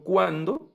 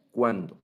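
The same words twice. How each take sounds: First: Cuándo said high and loud with a rising end; ¿cuándo? sung up as a startled question; ¿cuándo? pitched higher and louder, with a rising end; exclaimed question. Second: Said in the usual way. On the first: Shown as a demonstration. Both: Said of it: "la pregunta de cuándo es matai".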